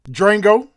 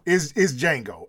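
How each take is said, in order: First: The name starts with a D and R sound. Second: The name starts with a plain J sound. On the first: The speaker calls it wrong. "I pronounced the D and put an R in there" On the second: The speaker calls it right. "The D is silent"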